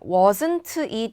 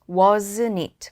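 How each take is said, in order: First: The t in wasn't is clearly pronounced. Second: The t in wasn't is swallowed. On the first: The speaker calls it wrong. "이렇게 하기보다는" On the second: The speaker calls it right. "T 발음이 약간 묻히죠"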